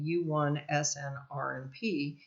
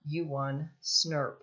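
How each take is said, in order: First: The abbreviation is spelled out letter by letter. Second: The abbreviation is said as one short word. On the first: "that's a mouthful. So rather than saying U one snRNP" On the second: "we say U one SNRP"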